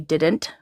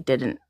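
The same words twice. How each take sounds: First: The t sound is fully released. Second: The t sound is glottalized. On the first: "we don't say didn't" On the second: "in Canada we glottalize our T's and D's. So we don't say didn't, we say didn't"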